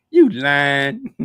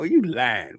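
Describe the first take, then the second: First: "You lying" thrown out louder, "you" punched with a rising tune; a louder accusing "You lying". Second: Said in the usual way. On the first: Shown as a demonstration. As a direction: call him out, half amused. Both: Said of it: "why did I say it like that".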